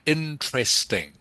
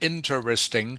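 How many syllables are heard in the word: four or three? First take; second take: three; four. First: The word is said with three syllables. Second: The word is said with four syllables. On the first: "most people say interesting. Okay? So interesting is three syllables" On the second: "you can pronounce it interesting"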